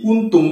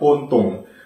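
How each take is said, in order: First: The vowels are pronounced as a clear u. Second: The vowels are pronounced as o.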